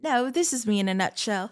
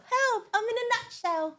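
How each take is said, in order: First: Said in the usual way. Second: High squeaky cry for help; tiny trapped voice. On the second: Pretend. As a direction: squeak it like someone stuck in a nut.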